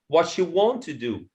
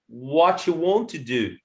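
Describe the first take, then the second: First: The first three words run together as one. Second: The same.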